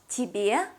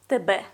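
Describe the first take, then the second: First: The vowels are pronounced as in Russian. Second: The vowels are pronounced as in Ukrainian. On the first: The speaker calls it wrong. "not тебе, like in Russian" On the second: The speaker calls it right. "but тебе"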